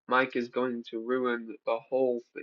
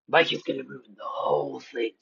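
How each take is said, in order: First: It is read in a normal voice. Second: It is read in a creepy voice.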